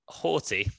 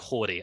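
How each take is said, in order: First: The name is said with an English accent. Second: The name is said with an American accent. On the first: "We are going to be hated by Americans for pronouncing it like that" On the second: "They go Horty"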